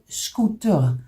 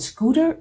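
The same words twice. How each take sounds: First: The word is said with a Dutch pronunciation. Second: The word is said with an English pronunciation. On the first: This is how Dutch speakers say it. "we call it scooter" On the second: This is how English speakers say it. "You call it scooter"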